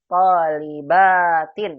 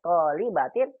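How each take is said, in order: First: The vowel before -tin is clearly long. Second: The vowel before -tin is short. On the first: It refers to many students. The speaker calls it right. "Harus jelas panjangnya" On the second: It sounds like it refers to one student. The speaker calls it wrong. "kalau dibaca dengan pendek"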